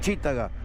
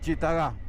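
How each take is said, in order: First: The stress falls on the I vowel. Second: The stress falls on an A vowel. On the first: "con acento en la I" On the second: "con acento en la A"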